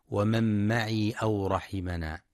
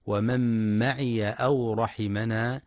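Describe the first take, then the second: First: ومن معي أو رحمنا with the ي of معي silent, maʿi; wrong silent ya. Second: ومن معي أو رحمنا with the ي of معي read as ya, maʿiya; open ya. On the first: Teacher shows the wrong silent ي in معي. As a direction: clip معي to maʿi, without a vowel on the ي. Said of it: "فلا يقرأ بسكونها". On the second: Teacher shows the correct open ي in معي. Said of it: "لفتح الياء". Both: Shown as a demonstration.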